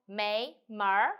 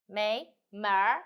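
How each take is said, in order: No difference in how they are said.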